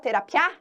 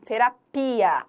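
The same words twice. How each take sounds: First: The final i and a run together. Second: The final i and a are kept apart. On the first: A sound gets lost. The speaker calls it wrong. "Se eu deixo junto, algum som se perde" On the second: Each sound is heard. The speaker calls it right. "Não, terapia. A gente ouve cada um dos fonemas"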